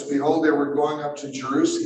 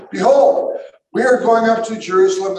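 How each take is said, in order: First: Said in the usual way. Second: Loud, raised-pitch scripture proclamation; Jesus proclaiming. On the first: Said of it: "it says just beyond this". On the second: Acted. Jesus telling followers of the trip to Jerusalem, proclaiming. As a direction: announce it like Jesus to his followers. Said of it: "this is what Jesus says".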